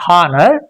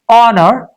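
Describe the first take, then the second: First: The word starts with an audible H sound. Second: The word starts with no H sound. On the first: The speaker calls it wrong. "it's not honor, but it's very common" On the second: The speaker calls it right. "but it's honor"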